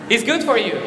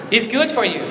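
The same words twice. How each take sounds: The two takes are said the same way.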